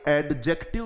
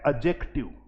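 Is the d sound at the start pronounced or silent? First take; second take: pronounced; silent. First: The d sound before j is pronounced. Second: The d sound before j is silent. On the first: The speaker calls it wrong. "ये एडजेक्टिव नहीं होता है" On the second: The speaker calls it right. "इसका सही उच्चारण है"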